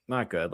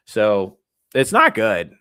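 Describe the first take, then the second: First: Softly muttered "Not good"; quiet echo. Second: "not good" loud and slow; emphatic. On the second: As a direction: lean hard on "not good". Emphatic verdict, then quieter echo. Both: Real, not acted.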